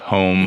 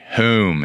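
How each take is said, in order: First: It is said without a Philadelphia accent. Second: It is said with a Philadelphia accent.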